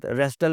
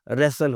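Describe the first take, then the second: First: "रेस्टल" with a T after S; T sounded. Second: "रेसल" with S straight into L; silent T. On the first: Teacher showing the mistake, T sounded. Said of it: "टी के साथ रेस्टल नहीं". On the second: Teacher correcting learners, T left silent. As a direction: drop the T, "रेसल". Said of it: "रेसल होता है". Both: Shown as a demonstration.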